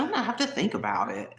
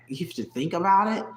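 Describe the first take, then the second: First: Put-on higher, prim Hillary Banks type accent on "I'm gonna have to think about it."; the girlfriend's hesitant reply in a Hillary Banks accent. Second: "You have to think about it?" asked in disbelief, rising at the end; repeating her words back, incredulous. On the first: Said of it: "that little Hillary Banks type accent". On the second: Retold or imitated. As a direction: retort in mock disbelief. Incredulous retort to girlfriend.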